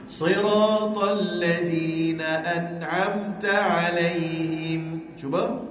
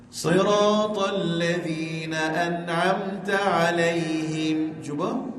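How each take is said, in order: No difference in how they are said.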